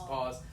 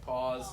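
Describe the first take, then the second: No difference in how they are said.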